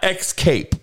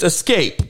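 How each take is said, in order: First: The word begins with an 'ex' sound. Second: The word begins with an 'es' sound. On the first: The speaker calls it wrong. "not X-cape" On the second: The speaker calls it right. "It's escape"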